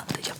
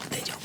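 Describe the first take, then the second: No difference in how they are said.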